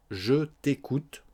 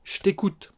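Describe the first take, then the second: First: Slow, with the vowel of "Je" sounded; full form of je. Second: Quick high "ch't'écoute", no vowel in "Je"; swallowed E of je. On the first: Teacher giving the full form, slow clear "Je". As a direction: separate "Je" and "t'écoute" carefully. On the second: Teacher modelling spoken French, "Je" reduced to a "ch". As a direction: squash "Je t'écoute" into "ch't'écoute". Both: Shown as a demonstration. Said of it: "On mange le E de je".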